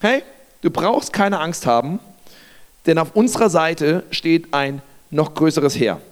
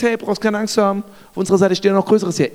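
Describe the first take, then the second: First: Calm, unhurried reassurance; simply reassuring. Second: Quick, dismissive quoting back; incredulous echo. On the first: Elisa to his frightened servant, calm reassurance. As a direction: reassure simply, with measured pauses. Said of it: "Elisa sagt einfach nur". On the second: Servant quoting Elisa's words back, hurried disbelief. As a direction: rattle his reassurance back at him in disbelief. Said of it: "Du stehst in einer überfordernden Situation und sagst". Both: Acted.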